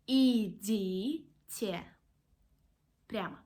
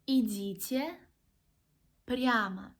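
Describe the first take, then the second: First: The phrase is said more slowly. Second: The phrase is said at normal speed.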